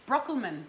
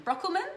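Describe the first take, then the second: First: Said in the usual way. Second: Brockelman? rising high like a question; questioning rise. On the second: Shown as a demonstration. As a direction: ask if Brockelman is right. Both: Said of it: "I'm gonna give it a go".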